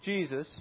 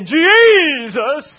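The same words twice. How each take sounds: First: The name is said in a plain, ordinary way. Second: The name is said with dramatic, powerful intonation. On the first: The speaker calls it wrong. "Maybe the name Jesus" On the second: The speaker calls it right. "Maybe there's more power based on intonation"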